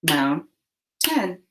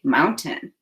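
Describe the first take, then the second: First: "Mountain" broken in two, second vowel said fully; split into chunks. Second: Said in the usual way. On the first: Shown as a demonstration. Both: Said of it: "Now say the chunks in mountain".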